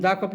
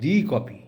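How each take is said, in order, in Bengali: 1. 'the' শব্দটি 'thuh' হিসেবে বলা হয়। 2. 'the' শব্দটি 'thee' হিসেবে বলা হয়। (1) "তখন দা কফি হবে না" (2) "যেহেতু জোর দিচ্ছে"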